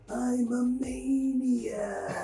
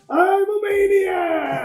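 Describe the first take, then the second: First: It is said with low energy. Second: It is said with high energy.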